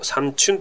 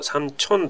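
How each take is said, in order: First: The second syllable has a 'u' vowel. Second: The second syllable has an 'o' vowel. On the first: This is the form most people commonly use. "サンチュンというふうに言うのが一般的には多く使われる" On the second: This is the original standard form. "サンチョンというのがもともと正しくて"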